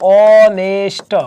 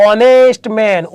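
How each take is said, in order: First: ઓનેસ્ટ slowly as o-nest, no h; sounded out. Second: Said in the usual way. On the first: Shown as a demonstration. Teacher showing the vowel at the start, ઓનેસ્ટ sounded out slowly. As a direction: hold the opening o of ઓનેસ્ટ, then nest. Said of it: "ઉચ્ચાર". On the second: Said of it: "ઉચ્ચાર ઓનેસ્ટ".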